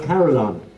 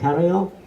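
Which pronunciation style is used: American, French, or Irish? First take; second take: American; French. First: The word is pronounced the North American way. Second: The word is pronounced the original French way. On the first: "In North America, they are nearer to the original pronunciation. They call it carillon" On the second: "It's actually a French word"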